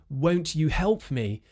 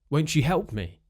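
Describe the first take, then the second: First: The t and y sounds stay separate. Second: The t and y merge into ch. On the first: "instead of saying" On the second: "We might say"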